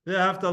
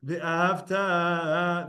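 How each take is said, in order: First: "Ve'ahavta" stressed on HAV; quick "Ve'ahavta" with short final ta; penultimate stress. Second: "Ve'ahavta" very slow, final TA held long; "Ve'ahavta" as ve-a-hav-TAAA; stress on tav. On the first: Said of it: "Ve'ahavta, loved". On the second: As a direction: chant the last syllable of "Ve'ahavta". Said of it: "the pronunciation should be on the tough". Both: Shown as a demonstration.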